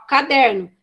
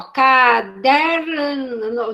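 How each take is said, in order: First: Said in the usual way. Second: CADERNO very slow, stretched sound by sound; child's halting reading. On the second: Retold or imitated. Teacher showing how the child read it, "caderno" slowly drawn out. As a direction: drag out "caderno" like a child decoding it. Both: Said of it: "É do jeito que a criança leu".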